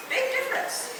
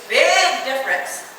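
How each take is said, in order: First: Said in the usual way. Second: "big" long and emphatic; stress on big. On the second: Real, not acted. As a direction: stretch the word "big". Repeats for emphasis.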